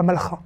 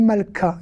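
First: "malcha" with a guttural kh instead of k; throaty CH. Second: "malka" with a hard k sound. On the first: Teacher showing the form to avoid, throaty CH. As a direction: say "malcha" with ch scraped as in Bach. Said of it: "et pas malcha". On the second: Teacher explaining the changed letter in queen, hard K. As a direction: say "malka" with a crisp k after the l. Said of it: "c'est devenu malka et pas malcha". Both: Shown as a demonstration.

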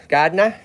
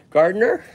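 First: "Gardner," with the R's dropped, GAHD-nah; Lowell Massachusetts accent. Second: Said in the usual way. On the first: Shown as a demonstration. Host showing Heidi how Lowell locals say it, "Gardner," in an R-less Massachusetts accent. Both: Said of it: "we would say".

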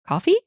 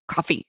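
First: Puzzled echo, high rising question; confused parroting. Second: Flat, softer one-word answer, falling; a short dismissive retort, a bit quieter; curt reply. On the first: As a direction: parrot it back, bewildered and much higher. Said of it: "parrot the word back at him". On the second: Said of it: "To which he replied". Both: Retold or imitated.

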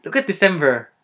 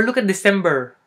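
First: "December" said as "Decemver"; loud exclamation with V for B in "December"; Filipino-accented "December", as "Decemver". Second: Said in the usual way. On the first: Shown as a demonstration. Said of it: "we confuse the V and the V". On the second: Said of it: "that is a B word, sorry".

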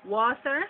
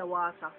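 First: Said in the usual way. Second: "water" as wah-ta; Jamaican pronunciation. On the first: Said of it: "calling the words and then giving". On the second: Shown as a demonstration. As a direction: say "water" with open a and no final r. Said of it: "in Jamaica".

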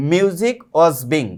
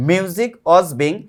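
The two takes are said the same way.

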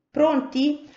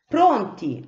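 First: Pronti asked with a high rising tune; rising question. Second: Pronti said with a flat falling end; firm answer. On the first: Cipì to the flock, a high questioning Pronti. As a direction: check they are set, ending up on Pronti. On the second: The sparrows answering Cipì, a firm falling Pronti. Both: Acted.

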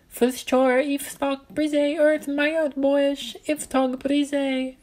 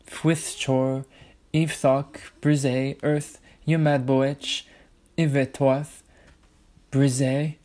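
First: Put-on very high tiny gnome child voice; gnome child repeating. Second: Said in the usual way. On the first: A narrator's reading. Gnome child repeating Ella's words back to her, very high. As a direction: squeak the words back like a happy little gnome. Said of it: "he repeated". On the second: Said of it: "I spoke them".

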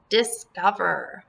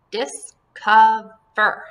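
First: Said in the usual way. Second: "Discover" slow and loud, DIS, COV, ER, with gaps; split into syllables. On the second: Shown as a demonstration. Teacher breaks up the word for pupils, "Discover" in separate syllables. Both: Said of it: "this is going to be one syllable".

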